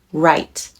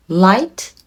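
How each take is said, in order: First: 'right' with an English R, low and final; R sound. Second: 'Light' with a clear L, rising at the end; L sound. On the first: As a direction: begin 'right' on a rounded R. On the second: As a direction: begin 'Light' on a clean L, tune up. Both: Shown as a demonstration. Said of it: "LとRから始まっていますので".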